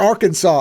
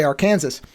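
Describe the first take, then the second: First: Said in the usual way. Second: Arkansas said as "ar-KAN-zus"; spelling pronunciation. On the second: Shown as a demonstration. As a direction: say Arkansas to rhyme with Kansas. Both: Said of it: "At least I don't say".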